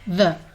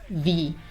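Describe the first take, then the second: First: The word ends in a short 'uh' vowel. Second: The word ends in a long 'ee' vowel. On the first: "The first way is the, which is probably what you're more familiar with. We use this one when the word that follows starts with a consonant sound" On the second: "The second way to pronounce it is the. We use the when the word that follows starts with a vowel sound"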